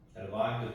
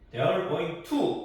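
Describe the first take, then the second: First: The word 'to' is mumbled and barely heard. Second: The word 'to' is pronounced fully and clearly. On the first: The speaker calls it right. "들릴랑 말랑" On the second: The speaker calls it wrong. "이렇게 하지 말라는 얘기죠"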